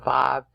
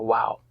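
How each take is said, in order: First: The name begins with a V sound. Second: The name begins with a W sound. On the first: This is how it is named today. "they call it a vav today" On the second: This is how it was named in the past. "they called it a wow. W A W"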